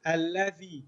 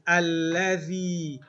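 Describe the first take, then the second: First: Said in the usual way. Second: Alladhi drawn out slow and loud; teacher's loud, slow Alladhi; say-along model. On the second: Shown as a demonstration. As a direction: stretch Alladhi out for the class to repeat. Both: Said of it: "Let's say this".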